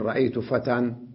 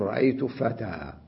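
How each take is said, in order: First: The last word ends with an added n sound. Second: The last word ends on a long vowel. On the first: The speaker calls it wrong. "لا يصح أن أقول رأيت فتى وأسكت هكذا" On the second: The speaker calls it right. "بل أقول رأيت فتى"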